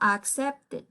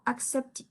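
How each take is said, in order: First: The final -ed is said hard and literally. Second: The final -ed is said soft and light. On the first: The speaker calls it wrong. "No, suena un poquito tosco" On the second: The speaker calls it right. "no tan fuerte como una ed"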